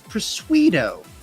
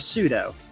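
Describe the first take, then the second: First: The p at the start is sounded. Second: The p at the start is silent. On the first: The speaker calls it wrong. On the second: The speaker calls it right.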